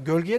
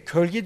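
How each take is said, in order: First: The word starts with a voiced g sound. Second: The word starts with a hard k sound.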